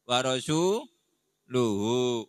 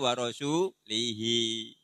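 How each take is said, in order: First: The word ends with the sounds -uhu. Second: The word ends with the sounds -ihi. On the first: The Messenger also disowns the idolaters. The speaker calls it right. "Iki boleh waca piye?" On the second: God disowns the idolaters and the Messenger. The speaker calls it wrong. "Gak oleh warasu lihi"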